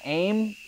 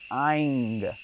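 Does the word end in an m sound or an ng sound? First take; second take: m sound; ng sound. First: The word ends with a closed m sound. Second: The word ends with a nasal ng sound. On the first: The speaker calls it wrong. "It's not Aim" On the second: The speaker calls it right. "It's Aing"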